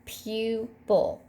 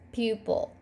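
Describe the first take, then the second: First: "pupil" split into pu, pil; syllable break before consonant. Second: Said in the usual way. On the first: Shown as a demonstration. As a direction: pause after the long pu in "pupil". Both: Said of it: "syllable break before the consonant".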